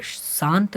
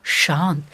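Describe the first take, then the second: First: शांत said as "saant", with a dental "s"; mispronounced श. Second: शांत as "shaant", clear "sh" onset; a corrected शांत, hushing first sound; correct palatal श. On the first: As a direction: start शांत on "s" instead of "sh". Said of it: "नहीं होता है". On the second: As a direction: model शांत with the tongue toward the palate. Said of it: "शांत नहीं होता है". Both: Shown as a demonstration.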